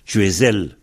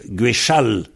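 First: The middle consonant is a z sound. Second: The middle consonant is a ch sound. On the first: This is how it is said in the Fanch country. "On prononce bien le Z" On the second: This is how it is said in Cornouaille and Léon. "avec un che"

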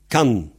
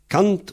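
First: The final T sound is silent. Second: The final T sound is pronounced.

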